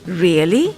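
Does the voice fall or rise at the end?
rise. The voice rises at the end. It is a question. "or a question"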